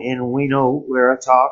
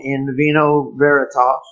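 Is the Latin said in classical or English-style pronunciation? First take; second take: classical; English-style. First: The Latin is said with classical pronunciation. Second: The Latin is said with English-style pronunciation. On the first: "in the classical tongue" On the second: "Pronounced in the English tongue"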